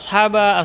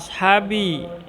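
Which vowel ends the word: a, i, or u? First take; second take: a; i. First: The word ends with an a vowel. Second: The word ends with an i vowel. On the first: The speaker calls it wrong. "Tidak boleh dibaca ashaba" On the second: The speaker calls it right. "kita fokus pada kata ashabi"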